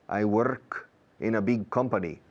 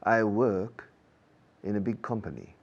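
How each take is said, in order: First: The R in work is tapped, Spanish-style. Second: The R in work is silent. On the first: "Prefiero eso" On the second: "Británicos"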